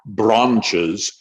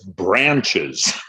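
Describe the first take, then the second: First: The word is said with a British accent. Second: The word is said with an American accent. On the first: The speaker calls it wrong. "it's not branches" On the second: The speaker calls it right. "They wanted a very, very American accent"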